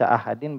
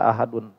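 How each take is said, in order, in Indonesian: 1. Kata itu diakhiri dengan bunyi 'in'. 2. Kata itu diakhiri dengan bunyi 'un'. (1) "Itu bisa dibaca ahadin" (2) "bisa dibaca ahadun"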